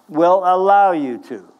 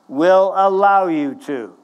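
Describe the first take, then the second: Both takes have the same delivery.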